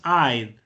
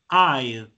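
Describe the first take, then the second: First: Said as one contracted syllable. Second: Said as one contracted syllable.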